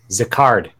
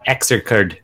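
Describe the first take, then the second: First: The name begins with a 'z' sound. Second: The name begins with an 'ex' sound. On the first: The speaker calls it right. "That's how you pronounce it" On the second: The speaker calls it wrong. "Not Exercard"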